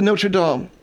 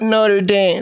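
First: The name is said with a French pronunciation. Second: The name is said with an American pronunciation. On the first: This is the cathedral's name. The speaker calls it right. "Technically, it is the Notre Dame" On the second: This is the football team's name. The speaker calls it wrong. "It's not Notre Dame. That's the football, Phil. That's the team"

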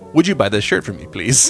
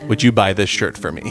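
First: It sounds like a pleading, polite request. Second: It sounds like a plain yes-or-no question.

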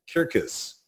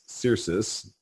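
First: The word begins with a hard K sound. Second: The word begins with a soft S sound. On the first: This is how the Romans would have said it. "if we were Romans, referring to redbud trees, Circus" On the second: This is the usual modern way to say it. "the Romans would never pronounce the word C-E-R-C-I-S, Sirius"

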